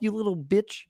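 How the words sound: It is said in a Kermit-like voice. "say it in a Kermit voice"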